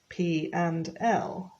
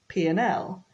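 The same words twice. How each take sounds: First: The word 'and' is pronounced fully and clearly. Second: The word 'and' is reduced to a short 'n'. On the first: The speaker calls it wrong. "we don't say P and L" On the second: The speaker calls it right. "When it's spoken quickly, it's like P and L"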